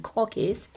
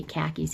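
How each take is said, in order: First: KHAKIS said the Australian way, like "corkies"; Australian pronunciation. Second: Said in the usual way. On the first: Retold or imitated. Imitating the Australian boyfriend, KHAKIS in an Australian accent as "corkies". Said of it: "He calls them khakis". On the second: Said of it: "he can't say khakis".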